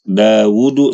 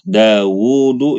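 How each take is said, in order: First: The middle u vowel is short. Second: The middle u vowel is long. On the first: The speaker calls it wrong. "jadi baca pendek. Dawudu salah" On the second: The speaker calls it right. "U-nya tuh panjang"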